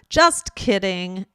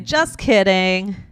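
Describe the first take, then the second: First: The T at the end of just is pronounced. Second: The T is dropped and linked into kidding. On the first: "Instead of just kidding" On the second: "You would say just kidding"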